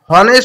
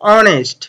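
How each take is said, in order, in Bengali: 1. শব্দটি h ধ্বনি দিয়ে শুরু হয়। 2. শব্দটি স্বরধ্বনি দিয়ে শুরু হয়। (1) "এখানে হনেস্ট হওয়ার কথা ছিল" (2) "কিন্তু উচ্চারণটা হচ্ছে অনেস্ট"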